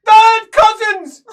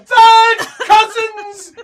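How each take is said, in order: First: Very loud, high, drawn-out yell; shouted back. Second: Very high, loud, drawn-out shriek; shrill. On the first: Game master voicing the cousin answering back, shrill shout. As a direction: bellow it back at full pitch. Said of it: "he shouts back". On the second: Game master voicing a cousin protesting, shrill shriek. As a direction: shriek it indignantly, stretching the words. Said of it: "he says shrilly". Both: Acted.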